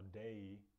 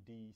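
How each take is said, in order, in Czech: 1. Samohláska je klouzavé 'ay'. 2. Samohláska je čisté 'ee'. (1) "když máte zvuk A, všude, kde je A, třeba day" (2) "tak oni říkají E"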